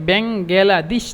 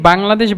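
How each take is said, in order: First: An extra vowel gives the word four syllables. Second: The word is said with three syllables. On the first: Listeners will understand it. The speaker calls it right. "একসাথে ব্যাঙ্গালাদেশ যদি বলেন তাহলে অবশ্যই বুঝবে" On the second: Listeners will not understand it. The speaker calls it wrong. "আপনি যদি বাংলাদেশ বলেন তাহলে ওরা অন্তত দশ থেকে পনেরো বার আপনাকে জিজ্ঞাসা করবে"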